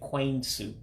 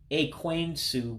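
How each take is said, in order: First: The first vowel is dropped from the word. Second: The word begins with a full vowel sound. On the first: "you drop the first E" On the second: "the next word is actually Ekwensu"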